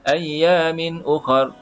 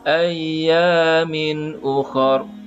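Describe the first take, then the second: First: It is read a little fast. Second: It is read slowly. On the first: "Kalau laju sikit" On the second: "Kalau slow"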